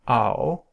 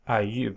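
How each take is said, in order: First: It is said as one gliding diphthong. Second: It is said as separate vowel sounds. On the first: The speaker calls it right. "but it's pronounced just ao" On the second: The speaker calls it wrong. "you would probably pronounce this as ayu"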